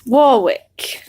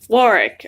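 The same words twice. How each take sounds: First: The name is said in a non-British way. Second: The name is said the British way.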